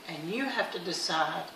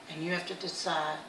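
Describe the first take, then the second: No difference in how they are said.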